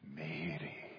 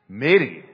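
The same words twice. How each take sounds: First: The name is said in a tender, loving way. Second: The name is said in an angry way. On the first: "it was love. Exquisite, tender, personal love" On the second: "Or maybe in anger"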